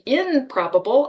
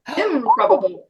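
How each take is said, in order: First: The prefix ends with an n sound. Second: The prefix ends with an m sound. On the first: The speaker calls it wrong. "I don't say improbable" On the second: The speaker calls it right. "I say"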